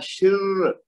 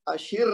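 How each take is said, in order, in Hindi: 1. आखिरी र दोहरी है और ज़ोर से दबाई जाती है। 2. आखिरी र छोटी और हल्की है। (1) "अब चूंकि रा तशदीद वाली, तो हमने पढ़ना है" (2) "अशिर नहीं कहना इसको।"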